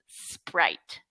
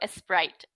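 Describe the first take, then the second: First: The word starts directly with the s sound. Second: An extra vowel sound comes before the s. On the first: The speaker calls it right. "It's just Sprite" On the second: The speaker calls it wrong. "S Sprite is incorrect"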